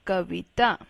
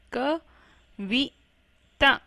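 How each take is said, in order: First: Said in the usual way. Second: कविता slowly split into ka, vi, taa; slow spelling-out reading of कविता in three parts; syllable by syllable. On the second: Shown as a demonstration. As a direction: sound out कविता with gaps between syllables. Teacher sounds out word by syllables.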